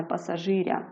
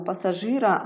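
First: "пасажиря" with a softened "р"; wrong soft r. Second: "пасажира" with a hard "р". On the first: Teacher shows the mistaken form "пасажиря", soft r. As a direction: palatal "ря" ending on "пасажиря". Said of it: "а не". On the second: Teacher shows the correct form "пасажира", hard r. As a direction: keep "пасажира" unsoftened, plain "ра" ending. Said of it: "це тверда група". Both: Shown as a demonstration.

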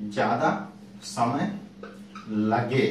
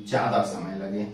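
First: ज्यादा, समय, लगे each said alone with pauses between; slow dictation pace for students writing; word-by-word dictation. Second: Said in the usual way. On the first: Shown as a demonstration. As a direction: spell out ज्यादा समय लगे slowly for note-taking. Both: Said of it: "लिख लीजिएगा आप लोग भी".

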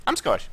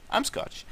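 First: Said in the usual way. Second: "I'm Scottish" whispered under the breath; whispered aside. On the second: Real, not acted. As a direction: toss it off in a whisper. Repeats it, second whispered.

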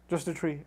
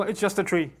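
First: Just a tree said much softer, JUST leaned on; softer echo. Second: Said in the usual way. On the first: Shown as a demonstration. Preacher softly repeating his point to the crowd, quiet. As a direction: let Just a tree fall away almost under the breath.

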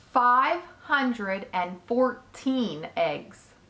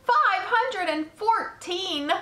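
First: Slow, word-by-word count; measured announcement. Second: High, loud, drawn-out disbelief; astonished shout. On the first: Spider tells Wilbur her egg count, slow and measured. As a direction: spell out the number slowly and firmly. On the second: Pig repeats spider's egg count, shouting in amazement. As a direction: shout it slowly, pitched way up. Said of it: "shouted Wilbur". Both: A narrator's reading.

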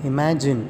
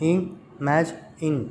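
First: Said in the usual way. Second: Slow "imagine" in three separate beats; syllable by syllable. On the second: Shown as a demonstration. Teacher counting syllables for children, "imagine" slowly split in three. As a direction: break "imagine" into i, ma, gine with pauses. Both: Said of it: "three syllables".

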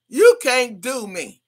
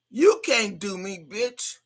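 First: You can't do me, louder and slower, each word landed; defiant emphasis. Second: Said in the usual way. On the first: Real, not acted. Streamer warns younger rivals, You can't do me louder and slower. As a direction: hammer You can't do me home. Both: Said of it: "repeats defiance, second stronger".

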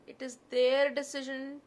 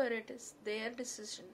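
First: "their" hit hard and much louder; insistent repeat, leaning heavily on "their"; stress on THEIR. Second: Said in the usual way. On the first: Real, not acted. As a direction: punch the word "their" with a big push of volume. Repeats it, insisting whose decision.

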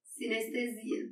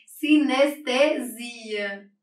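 First: "Sinestesia" said once more, much softer, half to herself; quiet repeat. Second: "Sinestesia" drawn out syllable by syllable, very slow; slow dictation. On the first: Teacher softly repeating the corrected word to herself. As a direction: murmur "Sinestesia" as a check of what was written. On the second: Teacher slowly dictating a term while writing on the board. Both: Shown as a demonstration. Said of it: "Gente, eu escrevi sinestésica".

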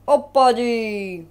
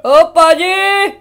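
First: Said in the usual way. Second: Loud, slow, drawn-out hero call; booming character voice. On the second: Pretend. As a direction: announce the name like a big hero.

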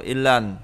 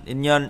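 First: "in lần" with l in place of nh; pronounced form. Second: "in nhân" with an n-nh sound in the middle; written form. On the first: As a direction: say "in lần" with a clear l starting the second syllable. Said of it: "đọc là in lần". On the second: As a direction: say "in nhân" as spelt, keeping the nh. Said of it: "in nhân đọc là in lần". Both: Shown as a demonstration.

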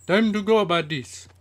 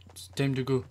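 First: Loud, high rallying call; sudden yell. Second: Said in the usual way. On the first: Real, not acted. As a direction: yell it out high to your buddies. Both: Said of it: "I'm telling like that".

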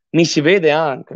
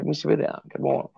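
First: Said in the usual way. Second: Muttered under his breath; quiet aside. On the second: Real, not acted. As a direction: say it softly to yourself. Repeats the cam check under his breath.

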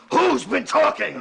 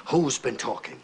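First: Slow, high, shouted demand; enraged boss roaring at his men; furious demand. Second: Said in the usual way. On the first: Acted. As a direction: bellow it, dragging out each word. Boss repeats the demand in rage.

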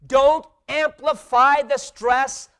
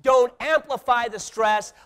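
First: Slow, loud, high-pitched proclamation; emphatic slogan. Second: "Don't amplify the stress" loud and high, a bit quicker; repeated slogan. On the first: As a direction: hammer home each word of "Don't amplify the stress". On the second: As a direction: lead the crowd through "Don't amplify the stress". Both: Shown as a demonstration. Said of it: "Say that with me".

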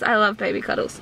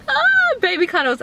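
First: Said in the usual way. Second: Gushing excited. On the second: Real, not acted. Gushing over baby cuddles.

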